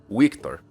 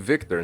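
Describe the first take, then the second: First: The V sound at the start is soft. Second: The V sound at the start is strong. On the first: "has less of an emphasis on the V sound" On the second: "like very clearly Victor"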